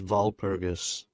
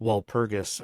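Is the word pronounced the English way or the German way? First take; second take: German; English. First: The word is pronounced with German sounds. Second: The word is pronounced with English sounds.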